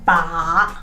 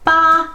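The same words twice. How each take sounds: First: The syllable is said in the third tone. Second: The pitch stays high and level throughout. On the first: "the third one is ba" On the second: "the first tone, ba, ba is flat"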